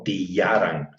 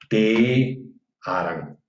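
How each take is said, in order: First: The vowel after t sounds like a plain i. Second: The vowel after t sounds open, like e. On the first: The speaker calls it wrong. "No tillaran" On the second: The speaker calls it right. "sino tearan"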